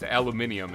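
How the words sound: The word is said with five syllables. This is the English way of saying it. The speaker calls it right. "aluminium is how they pronounce it like in in, uh, in England"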